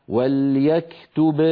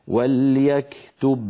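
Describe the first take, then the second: Both takes have the same delivery.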